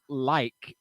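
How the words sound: The word is carefully enunciated. The speaker is trying to speak clearly. "I'm trying to enunciate. Like I'll say like"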